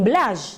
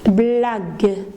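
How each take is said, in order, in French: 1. Le g est doux, comme le s dans « measure ». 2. Le g est dur, comme dans « go ». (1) "le mot n'existe pas" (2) "j'ai prononcé G"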